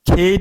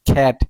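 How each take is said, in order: First: The vowel is a mid 'e' sound. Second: The vowel is the short open 'a' sound. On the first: The speaker calls it wrong. "খেট উচ্চারণ করেন নাই" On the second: The speaker calls it right. "Short ball উচ্চারণ করছেন খ্যাট"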